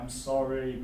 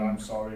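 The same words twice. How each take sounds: First: It is said warmly, with emphasis and intonation. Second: It is said flat and robotic, without feeling. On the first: The speaker shows empathy. The speaker calls it right. "it's the emphasis and the intonation" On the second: The speaker shows no empathy. The speaker calls it wrong. "this could have been said in a robotic voice"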